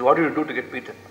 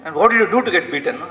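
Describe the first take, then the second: First: Said in the usual way. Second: Agitated father. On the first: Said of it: "He says". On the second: Retold or imitated. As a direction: demand it like an irritated father. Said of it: "He's very agitated".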